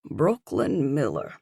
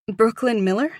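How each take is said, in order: First: Brooklyn Miller. falling, settled; firm statement. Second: Brooklyn Miller? rising like a question; unsure question. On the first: Woman correcting herself to concierge, firm falling statement. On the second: Nervous woman giving her name to concierge, rising like a question. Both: A narrator's reading. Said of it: "came out as a question".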